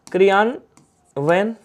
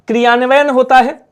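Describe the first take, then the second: First: क्रियान्वयन drawn out very slowly and softly, ending with a rise; slow spelled-out word. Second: Said in the usual way. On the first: Shown as a demonstration. Teacher writing the word on the board, very slow and soft.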